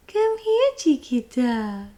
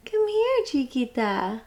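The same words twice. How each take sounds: First: High coaxing call, slower ending; calling pet. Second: Calling pet. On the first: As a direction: coax the kitten closer. Calling the cat again. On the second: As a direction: lure the cat over sweetly. Calling the cat. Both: Real, not acted.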